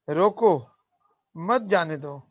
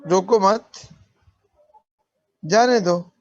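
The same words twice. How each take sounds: First: The pause comes right after रोको. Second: The pause comes right after मत.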